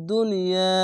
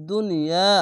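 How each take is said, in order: No difference in how they are said.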